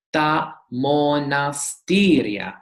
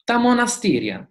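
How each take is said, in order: First: Ta monastiria spelled out slowly, every syllable clear; slow careful Greek. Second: Ta monastiria said higher and faster, in one flowing sweep; quick natural Greek. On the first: Teacher modelling ta monastiria slowly for students. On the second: Teacher showing students how ta monastiria sounds at native speed. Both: Shown as a demonstration. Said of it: "Greek lesson pronunciation demo".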